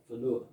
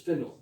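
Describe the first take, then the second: First: "Whenua" with the stress moved later in the word; "Whenua" stressed on the middle, as learners do; wrong stress on "Whenua". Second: "Whenua" with stress on the first syllable; "Whenua" with a strong first syllable, the rest light; correct stress on "Whenua". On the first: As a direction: put the weight in the wrong place in "Whenua". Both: Shown as a demonstration. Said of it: "not Whenua".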